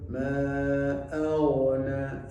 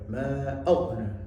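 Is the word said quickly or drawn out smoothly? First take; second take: drawn out; quickly. First: The word is said slowly with a flowing sound. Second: The word is said quickly and clipped. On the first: The speaker calls it right. "yang betul" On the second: The speaker calls it wrong. "jangan dibuat cepat"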